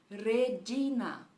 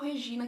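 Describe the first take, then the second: First: The word is pronounced the Latin way. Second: The word is pronounced the Portuguese way. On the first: The speaker calls it right. "A pronúncia seria um Regina" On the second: The speaker calls it wrong. "não é o Regina que a gente fala assim em português"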